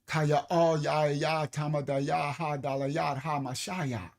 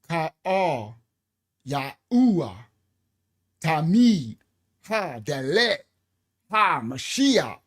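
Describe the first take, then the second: First: The words repeat one vowel sound throughout. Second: The words use a mix of different vowels. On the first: The speaker calls it right. "they are Ahayat, one sound" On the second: The speaker calls it wrong. "They're not one"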